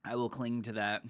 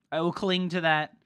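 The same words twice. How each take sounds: First: Said in the usual way. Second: Higher, louder CLING to that; emphatic. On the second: Acted. Streamer holding on to water advice, emphatic CLING. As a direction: insist on CLING, pushed up and loud. Repeats it with more force.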